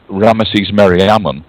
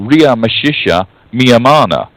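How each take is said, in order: First: It is said as Ramesses Meriamun. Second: It is said as Ria Meshisha Miyamana. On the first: This is how scholars say the name today. The speaker calls it wrong. "that is the way we pronounce it today. We call it Egypto-speak" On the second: This is how the name was said in antiquity. The speaker calls it right. "his name was actually Ria Meshisha Miyamana"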